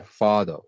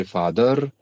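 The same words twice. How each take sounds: First: R-less ending on "father"; dropped final r. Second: "father" with the final r pronounced; full r ending on "father"; r sounded at the end. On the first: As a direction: say "father" as "fah-thuh", falling at the end. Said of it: "they say father". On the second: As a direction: say "father" slowly, sounding the last r. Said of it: "connected English". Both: Shown as a demonstration.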